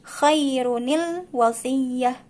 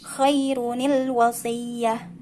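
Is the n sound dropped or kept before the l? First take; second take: kept; kept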